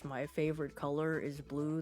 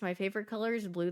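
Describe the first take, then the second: First: It is said in a deliberately lowered voice. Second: It is said in her normal voice.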